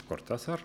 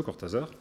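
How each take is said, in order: First: Cortázar softly, with Spanish R and S sound; Spanish pronunciation. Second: Cortázar with French R and voiced Z; French pronunciation. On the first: Writer correcting himself on the name, softer Spanish pronunciation. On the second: Writer admitting he knew little of the author, French pronunciation. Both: Shown as a demonstration. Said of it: "qu'il prononçait plutôt à la française".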